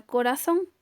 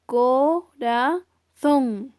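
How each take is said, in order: First: Said in the usual way. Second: Corazón drawn out as CO... RA... ZÓN; corazón syllable by syllable, long final ZÓN; split into syllables. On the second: Shown as a demonstration. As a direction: say corazón slowly in three separate syllables, stress on ZÓN. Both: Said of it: "tres sílabas".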